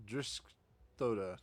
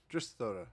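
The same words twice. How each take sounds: First: Driskthoda said very slowly, syllable by syllable; slow careful name. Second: Said in the usual way. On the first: Shown as a demonstration. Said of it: "repeats the name to get it right". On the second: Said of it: "repeats the name at normal pace".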